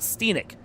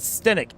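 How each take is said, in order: First: The first vowel is long, as in 'steep'. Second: The first vowel is short, as in 'step'. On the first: The speaker calls it wrong. "It is not Steenick like it looks" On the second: The speaker calls it right. "it actually is Stenick"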